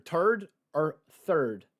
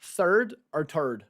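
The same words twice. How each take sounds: First: Slow, drawn-out "third or third", t-sound then th-sound; third with and without th. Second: Slow, drawn-out "Third or third", th-sound then t-sound; third with and without th. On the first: Slowly compare "third" said as "tird" then with th, for viewers. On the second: Slowly compare "Third" said with th then as "tird", for viewers. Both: Shown as a demonstration. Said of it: "Which sounds better".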